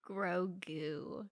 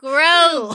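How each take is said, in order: First: The name is said quietly, in a normal voice. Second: The name is said loudly, with a croak.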